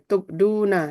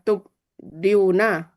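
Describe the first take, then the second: First: The 'i' vowel is dropped before the long 'u'. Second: An 'i' vowel comes before the long 'u'. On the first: This form is easier to pronounce. The speaker calls it right. "untuk memudahkan atau meringankan bacaan" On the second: This form is hard to pronounce. The speaker calls it wrong. "kan susah bacanya"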